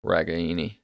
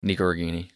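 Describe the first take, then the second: First: "Ragaini" with every syllable sounded; full, unblurred "Ragaini", middle vowel kept; correct pronunciation. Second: "Nico Ragaini" run together, casual and quick; just get "Nico Ragaini" out there; quick everyday version of "Nico Ragaini", syllables blurred; nice and fast. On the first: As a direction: say "Ragaini" carefully, as the grandparents would. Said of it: "But the correct way". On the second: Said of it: "get it out there nice and fast". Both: Shown as a demonstration.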